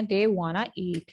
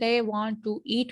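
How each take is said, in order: First: "want to" merged into "wanna"; no t, "wanna" run as one word; reduced casual form. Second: "want to" said as two words; full form. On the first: Teacher showing informal speech, reduced and linked. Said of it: "को हम कर देते हैं they wanna eat". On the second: Teacher giving the unchanged phrase, full form. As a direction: keep the t in "want" and say "to" separately. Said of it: "को हम कर देते हैं". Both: Shown as a demonstration.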